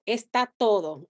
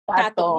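First: Both words are said fully and clearly. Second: The words are squeezed into two short syllables. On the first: "He's like, no está todo, está todo" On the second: "And I'm like, tato"

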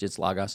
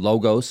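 First: It is pronounced with original Greek-style sounds. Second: It is pronounced with English-style sounds. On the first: The speaker calls it right. "That's actually not how it's pronounced in the original language. It's logos" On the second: The speaker calls it wrong. "I'll give you an anglicized version"

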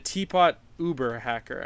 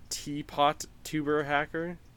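First: The t stays with teapot, giving the word Uber. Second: The t is linked, giving the word tuber. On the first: The speaker calls it right. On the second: The speaker calls it wrong.

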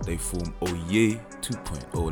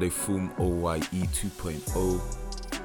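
First: The name is said with lively, flavored energy. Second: The name is said plainly, without flair. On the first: The speaker calls it right. "Let me put some flavor on that" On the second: The speaker calls it wrong. "Now I'm saying that wrong"

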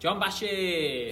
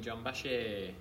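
First: It is said upbeat, with more energy. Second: It is said flatly, with little energy.

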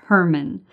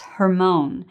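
First: The word is pronounced the English way. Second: The word is pronounced the Hebrew way. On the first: "In English, we pronounce it Hermon" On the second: "but in Hebrew, it's Hermon"

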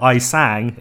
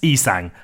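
First: The word begins with an 'eye' sound. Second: The word begins with an 'ee' sound. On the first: The speaker calls it wrong. "I read it as I sang" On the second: The speaker calls it right. "It's e-sang, and I apologise"

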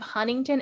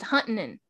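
First: It is said in a neutral American accent. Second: It is said in a Southern American accent. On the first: "instead of Huntington" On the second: "it's Huntington"

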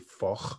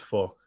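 First: The final K is crisp and hard. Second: The final K is softened and weak. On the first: "great in a Scottish accent" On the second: "in a wool accent"

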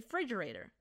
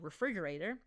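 First: The word is pronounced in an altered nonstandard form. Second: The word is pronounced in its full standard form. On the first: The speaker calls it wrong. "I say refrigerator. My fiance loves to remind me that that is not a word" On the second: The speaker calls it right. "instead of saying refrigerator"

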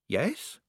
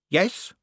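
First: The voice is shaky and trembling. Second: The voice is rougher and gruffer.

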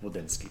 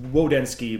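First: The name starts with a V-like sound. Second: The name starts with a plain W sound.

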